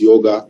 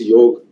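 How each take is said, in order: First: It is said the Western way, with a final vowel. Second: It is said the Indian way, without a final vowel.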